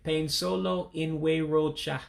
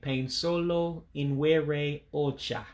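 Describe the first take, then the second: First: The last two words merge, dropping a vowel. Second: Every word is pronounced fully and separately. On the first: "you're running inwere and ocha together, and you're taking out that last E" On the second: "if you pronounce all the words"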